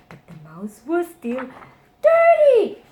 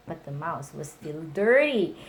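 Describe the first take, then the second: First: "dirty" shot up high and loud; building refrain. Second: Said in the usual way. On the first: A narrator's reading. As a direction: climb to a big "dirty".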